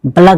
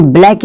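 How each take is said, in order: First: "बलक" as two syllables, ba-LAK; "बलक" ending in -lak, not -laik; taught pronunciation "बलक". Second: "ब्लैक" as one syllable, BLAIK; wrong pronunciation "ब्लैक". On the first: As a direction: say "बलक" with a vowel after the b. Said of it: "बलक बोलेंगे". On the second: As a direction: say "ब्लैक" with bl together and an "ai" vowel. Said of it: "ब्लैक इसको नहीं बोलेंगे". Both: Shown as a demonstration.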